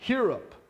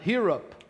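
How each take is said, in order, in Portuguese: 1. A palavra começa com um sopro parecido com h. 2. A palavra começa com um sopro parecido com h.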